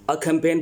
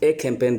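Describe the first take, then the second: First: The article is a short weak 'uh' sound. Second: The article is a full 'ay' sound. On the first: "अ campaign भी कह सकते हैं आप" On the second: "ए campaign भी कह सकते हैं आप"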